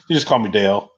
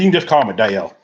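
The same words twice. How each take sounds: First: Said in the usual way. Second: Lightly imitated country accent, Dale stretched; attempted country accent. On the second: Host quotes Dale Junior introducing himself, attempted country accent. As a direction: have a half-hearted go at a country accent. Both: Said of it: "I'm trying to do the country accent".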